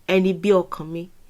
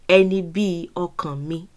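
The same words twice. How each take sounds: First: The phrase is said quickly and smoothly. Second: The phrase is said slowly and carefully.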